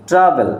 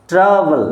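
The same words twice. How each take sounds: First: Said in the usual way. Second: ট্রাভেল in two parts, ট্রা then ভেল; split into syllables. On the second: Shown as a demonstration. Teacher showing which part comes first, ট্রাভেল sounded out as ট্রা-ভেল. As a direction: stretch ট্রা before adding ভেল. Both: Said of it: "আগে হবে ট্রা".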